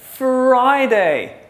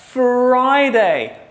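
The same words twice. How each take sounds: No difference in how they are said.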